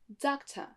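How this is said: British accent, the final r is dropped. "l'accent U K ensuite"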